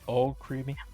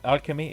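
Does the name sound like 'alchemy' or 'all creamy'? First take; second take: all creamy; alchemy. First: The name sounds like the words all creamy. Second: The name sounds like the word alchemy. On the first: The speaker calls it right. "It's all creamy" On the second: The speaker calls it wrong. "It's not like alchemy"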